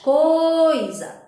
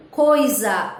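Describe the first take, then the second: First: "Coisa" with the O held long and high, I kept brief; stressed vowel stretched. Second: Said in the usual way. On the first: Shown as a demonstration. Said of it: "maior tonicidade". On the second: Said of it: "Olha a sílaba".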